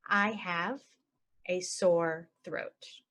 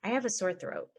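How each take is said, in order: First: Very slow, broken into chunks. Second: Said in the usual way. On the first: Shown as a demonstration. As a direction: draw it out for learners. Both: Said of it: "normal then slow".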